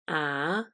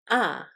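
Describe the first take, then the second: First: The pitch rises. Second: The pitch starts high and then falls. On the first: "the second tone, which is a rising sound" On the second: "starts high and then falls"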